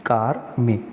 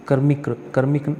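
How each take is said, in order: First: कार्मिक with a long aa, kaar-mik; कार्मिक, said as the right form; correct form. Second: कर्मिक with a short a, kar-mik; कर्मिक, the wrong spelling; wrong form. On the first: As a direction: stretch the first syllable of कार्मिक. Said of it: "यहाँ पर कार्मिक होता है". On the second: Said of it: "कर्मिक नहीं होता". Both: Shown as a demonstration.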